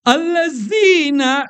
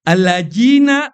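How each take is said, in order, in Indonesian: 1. Konsonan tengahnya bunyi z. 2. Konsonan tengahnya bunyi j. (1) "za dibaca za" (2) "atau dibaca jim"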